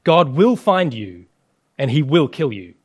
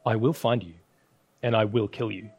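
First: Loud warning. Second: Solemn gravelly movie threat, lightly done; a hint of a low, menacing kidnapper call; grinding rumbling rock voice. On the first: Acted. Threat echoed as loud woe. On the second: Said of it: "solemn, gravelly voice".

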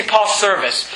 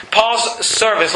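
First: Said in the usual way. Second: "Paul's service" said slowly, each word leaned on; slow emphatic repeat. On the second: Shown as a demonstration. Preacher to church, repeating "Paul's service" slowly for weight. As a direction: let "Paul's service" sink in, drawn out and stressed. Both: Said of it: "I'd like you to see Paul's service".

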